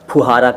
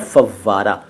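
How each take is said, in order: First: The middle has an h sound after 'u'. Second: The middle has a doubled v sound. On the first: The speaker calls it wrong. "फुहारा कहते हैं" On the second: The speaker calls it right. "सही शब्द है फव्वारा"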